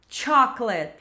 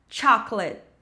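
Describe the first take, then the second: Both takes have the same delivery.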